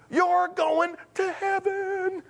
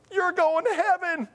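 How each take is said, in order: First: High, very slow elated cry; drawn-out jubilation. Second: High-pitched joyful cry; retold jubilation. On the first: Retold or imitated. Telling the upset woman again, slow drawn-out jubilation. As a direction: stretch HEAVEN out high, in mock elation. Repeats it, stretched out, retold. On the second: Answering the upset woman, high-pitched jubilation. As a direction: pitch it way up in mock elation.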